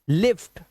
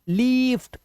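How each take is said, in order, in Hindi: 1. स्वर छोटा और तेज़ है। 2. स्वर लंबा और खिंचा हुआ है।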